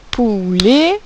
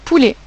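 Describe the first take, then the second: First: Poulet stretched into pou-let, rising at the end; drawn-out syllables. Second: Said in the usual way. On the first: Shown as a demonstration. Teacher asking pupils to find the ou sound, drawn out. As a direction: hold the ou of Poulet, lift the last syllable. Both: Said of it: "Où est-ce que j'entends le son ou?".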